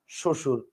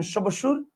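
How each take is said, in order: First: শ্বশুর as sho-shur, no b; lower, matter-of-fact "shoshur" for শ্বশুর; silent b. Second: শ্বশুর as sho-ba-shur, questioning; wrongly sounded b. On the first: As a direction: drop the ব in শ্বশুর. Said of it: "আপনি বলেন". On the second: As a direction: put a full b into শ্বশুর. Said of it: "বলেন না, আপনি বলেন". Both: Shown as a demonstration.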